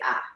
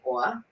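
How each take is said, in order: First: The vowel is said as an open 'ah' without r. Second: The vowel is said with an r-colored 'or' sound. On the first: "Boston people say, or Boston, they say "ah."" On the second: "New Yorkers say "or,""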